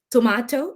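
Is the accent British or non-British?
British. It is said in a British accent. This is how people say it in the UK. "in here they would say"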